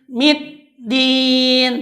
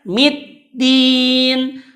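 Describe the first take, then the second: The two takes are said the same way.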